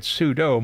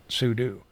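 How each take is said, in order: First: Sudo rhymes with judo; sudo as soo-doh. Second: Sudo ends like "do"; sudo as soo-doo. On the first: Admitting his usual habit, sudo said soo-doh. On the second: Admitting his less frequent habit, sudo said soo-doo. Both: Shown as a demonstration. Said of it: "even my pronunciation varies".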